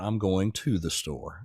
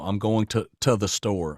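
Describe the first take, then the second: First: Every word is fully and clearly enunciated. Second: The words are reduced and run together casually. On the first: The speaker sounds like an expert. "if I'm doing more export" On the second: The speaker sounds natural and conversational. "in Gen Am, you know, a lot of the the teachings are you say"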